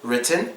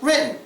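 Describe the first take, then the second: First: The T is fully released. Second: The T is silent, leaving a little gap.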